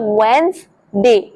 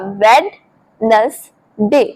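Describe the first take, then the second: First: It is said in two syllables without a d. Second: It is said in three syllables with a d. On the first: The speaker calls it right. "आपको बोलना है वेंसडे" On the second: The speaker calls it wrong. "तीन हिस्सों में divide करें तो बनेगा वेडनेसडे, but ये गलत प्रोनाउंसिएशन है"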